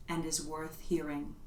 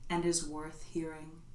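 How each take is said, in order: Both takes have the same delivery.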